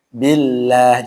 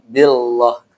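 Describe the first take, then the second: First: The lah sound is thin and light. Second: The lah sound is thick and heavy. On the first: The speaker calls it right. "ingat tipis ya" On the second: The speaker calls it wrong.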